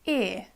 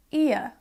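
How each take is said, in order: First: "ear" as one long vowel; speaker's own accent. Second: "ear" in two parts, "ee-uh"; other pronunciation. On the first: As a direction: hold the vowel in "ear", no glide. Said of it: "In my accent, that is ear". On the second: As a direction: glide "ear" from ee to uh. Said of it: "I also pronounce it ear sometimes". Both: Shown as a demonstration.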